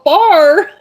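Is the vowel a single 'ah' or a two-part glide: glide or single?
single. The vowel is a single flat 'ah' sound. This is the local dialect form. The speaker calls it wrong. "My family says far instead of fire"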